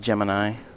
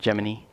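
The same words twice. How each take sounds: First: The word does not sound like 'Jiminy'. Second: The word sounds like 'Jiminy'. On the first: The speaker calls it right. "it's actually Gemini" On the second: The speaker calls it wrong. "not Gemini"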